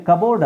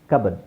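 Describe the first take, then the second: First: ಕಬೋರ್ಡ್ with a full long o; wrong pronunciation. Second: ಕಬರ್ಡ್ reduced to kub-erd; weak short second syllable in ಕಬರ್ಡ್; simple pronunciation. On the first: Teacher showing what is wrong, wrong pronunciation. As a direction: end ಕಬೋರ್ಡ್ like the word board. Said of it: "ಅಲ್ಲ". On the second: Teacher giving the right form, simple pronunciation. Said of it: "simple pronunciation". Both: Shown as a demonstration.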